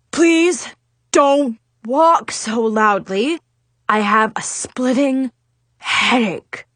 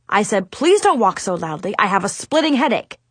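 First: Slow, strained headache complaint; grumbled plea. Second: Quicker, exasperated self-quote; impatient repetition. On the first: A narrator's reading. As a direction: grumble each phrase with pained pauses. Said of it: "he grumbled". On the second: Acted. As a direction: rattle off the complaint as a reminder. Adviser repeats his complaint impatiently.

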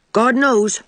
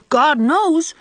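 First: "God knows" tossed off lightly and quickly; breezy, careless little "God knows"; airy. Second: "God knows" drawn out slowly and higher, in a light imitation of Mrs Lynde; slow, solemn "God knows" mimicking an older woman; imitating Mrs Lynde. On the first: A narrator's reading. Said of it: "said Davy airily". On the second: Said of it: "just like that".

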